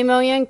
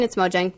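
First: The name is said the Swedish way. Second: The name is said the American way. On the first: This is the original pronunciation in the source language. "That's how it is in Swedish" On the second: This is the accepted pronunciation for Americans. "if you're American, it's Mojang"

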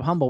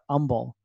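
First: The word begins with an audible H sound. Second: The word begins with a vowel, no H. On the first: This is how outsiders say the town's name. "Instead of Humble" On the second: This is how locals say the town's name. "It's spelled with an H, but we all call it Humble"

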